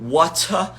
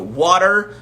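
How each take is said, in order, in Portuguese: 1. Ela é dita com sotaque do inglês britânico. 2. Ela é dita com sotaque do inglês americano. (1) "no inglês é, britânico" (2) "no inglês americano"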